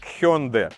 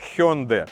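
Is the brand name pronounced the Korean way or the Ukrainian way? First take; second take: Korean; Korean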